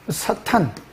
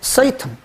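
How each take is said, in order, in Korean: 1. 첫 모음은 평범한 'a' 소리입니다. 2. 첫 모음은 'ei' 활음 소리입니다. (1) "우리 헬라 말로 하면 사탄 이렇게 쓰는 거고요" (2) "영어로 말하면 세이탄 이렇게 발음을 해요"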